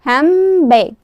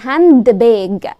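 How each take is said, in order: First: The d sound is dropped. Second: The d sound is clearly pronounced. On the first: The speaker calls it right. "هي كلمه واحده" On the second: The speaker calls it wrong. "ما بقولش عليها hand bag"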